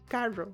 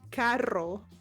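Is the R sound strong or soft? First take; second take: soft; strong. First: The R is soft, not strongly rolled. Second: The R is rolled strongly. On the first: This is how Costa Ricans say it. "how we say it is carro" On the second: This is the standard pronunciation. "correctly we say carro"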